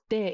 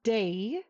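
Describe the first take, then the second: First: The vowel is short, crisp and steady. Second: The vowel glides like an English diphthong. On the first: The speaker calls it right. "it's de. Very, very crisp" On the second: The speaker calls it wrong. "It's not day"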